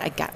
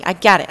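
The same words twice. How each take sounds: First: Much softer, to herself; quiet self-directed repeat; soft echo. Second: Louder, emphatic declaration; loud insistent acceptance; firm loud. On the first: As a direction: let it drop to a quiet murmur. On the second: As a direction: say it out strong, accepting the charge. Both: Real, not acted. Repeating after the scolding.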